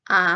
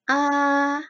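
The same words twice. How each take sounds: First: The pitch rises quickly and briefly. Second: The vowel carries the first tone. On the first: "nada dua, itu naik ke atas" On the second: "dari nada satu sampai empat"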